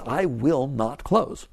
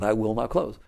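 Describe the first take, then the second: First: Slow, with the weight on "I"; «I will not close» said slowly, "I" stressed; firm vow. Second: Said in the usual way. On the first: Shown as a demonstration. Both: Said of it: "That's what I'm gonna work with".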